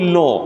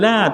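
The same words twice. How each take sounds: First: The L is heavy and thick. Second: The L is light and thin. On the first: "untuk Allah jadi la" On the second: "asalnya tarqiq disebut dengan la"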